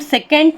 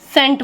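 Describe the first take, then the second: First: The C is pronounced as a K sound. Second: The C is silent after the S. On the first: The speaker calls it wrong. "हम सेकेंड नहीं बोलते हैं" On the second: The speaker calls it right. "सेंट बोलते हैं"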